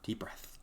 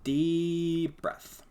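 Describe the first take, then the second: First: Breathy whisper to self; whispered calming reminder. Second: Higher, louder tense reminder; tense forced calm; strained self-calming. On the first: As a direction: whisper it to calm down. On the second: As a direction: force the calm through clenched frustration. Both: Real, not acted.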